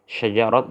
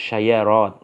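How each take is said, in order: First: The middle consonant is a j sound. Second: The middle consonant is a y sound. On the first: This is the standard form. "karena jim dirubah menjadi ya" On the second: This is the dialect form. "karena jim dirubah menjadi ya"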